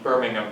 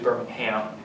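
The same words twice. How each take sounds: First: The name is pronounced the British English way. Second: The name is pronounced the American Alabama way. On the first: This is how the English city is named. The speaker calls it wrong. "that's the English way of pronouncing it" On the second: This is how the Alabama city is named. The speaker calls it right. "It's usually Birmingham in, in Alabama"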